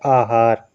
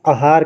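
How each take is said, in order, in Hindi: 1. यह शब्द लंबे आ स्वर से शुरू होता है। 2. यह शब्द छोटे अ स्वर से शुरू होता है। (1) "जबकि शुद्ध क्या है" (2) "बहुत लोग आहार कह देते हैं, ये आपका क्या होता है, गलत होता है"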